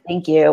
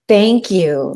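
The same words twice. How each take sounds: First: It is said casually and dismissively. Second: It is said with heartfelt, deep gratitude.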